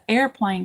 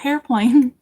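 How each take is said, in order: First: The word begins with a vowel sound. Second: The word begins with an h sound. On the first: The speaker calls it right. "It's not a hairplane. It's an airplane because it, it goes through the air" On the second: The speaker calls it wrong. "I've always called it a hairplane"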